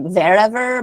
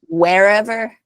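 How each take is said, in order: First: The word begins with a V-like sound. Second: The word begins with a W sound. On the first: "when you guys say it, it sounds like a V" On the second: "with English speakers in the United States, we would say like wherever"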